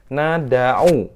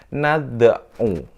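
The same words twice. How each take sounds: First: The d carries a full open vowel. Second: The d carries only a brief half-vowel bounce. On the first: The letter is read with a full fathah vowel. "ini kalau dia full" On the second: The letter is silent and only bounces, as qalqalah. "maka dibaca setengah dari fathah"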